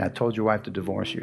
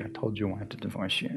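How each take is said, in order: First: Softer, lower, replaying mom's words in his head; echoing memory. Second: Much softer, lower, dying away to almost nothing; fading echo. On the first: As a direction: hear it echo back inside you. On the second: Retold or imitated. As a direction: let the memory fade out. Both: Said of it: "kept hearing my mom saying".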